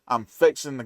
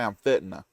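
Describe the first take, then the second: First: It is said fully, without a strong Southern accent. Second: It is said clipped, with a strong Southern accent.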